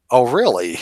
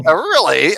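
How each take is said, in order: First: Lightly imitated British accent, falling; a hint of mock British. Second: Higher-pitched mock British, rising at the end; British accent. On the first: Quoting the debater's reply to Alex, lightly British. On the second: Redoing the debater's reply, in exaggerated British. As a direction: play up the imitated British accent. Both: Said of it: "In his British, you know, accent now".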